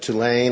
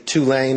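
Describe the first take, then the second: First: It is said the speaker's Boston way. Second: It is said the New Orleans local way.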